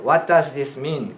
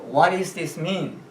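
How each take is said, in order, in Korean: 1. 'does'는 완전하고 분명하게 발음돼요. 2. 'does'는 약하게 줄여서 거의 들리지 않아요.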